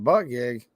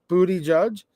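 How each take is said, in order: First: The name ends with a 'gig' sound. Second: The name ends with a 'judge' sound. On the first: The speaker calls it wrong. "I was pronouncing it butt gig" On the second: The speaker calls it right. "He said he's called Booty Judge"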